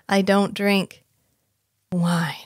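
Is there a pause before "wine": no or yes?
yes. There is a pause before wine.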